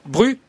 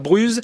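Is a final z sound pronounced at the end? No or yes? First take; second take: No; Yes. First: The final z sound is silent. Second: The final z sound is pronounced. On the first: The speaker calls it right. "ça se dit Bru, effectivement" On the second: The speaker calls it wrong. "j'ai prononcé le Z, pardonnez-moi"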